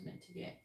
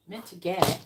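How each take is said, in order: First: Said in the usual way. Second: Scornful echo. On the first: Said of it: "I don't wanna say meant to get". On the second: Shown as a demonstration. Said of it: "I don't like that wording".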